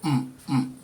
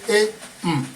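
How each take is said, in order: First: Both syllables are on a low tone. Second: A high tone followed by a low tone. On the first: "low low" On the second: "that is high low"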